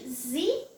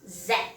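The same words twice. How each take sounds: First: The letter is said in an American accent. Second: The letter is said in a British accent. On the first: "American English" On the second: "British English"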